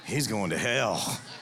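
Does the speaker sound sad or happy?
happy. It is said in a happy, gleeful tone.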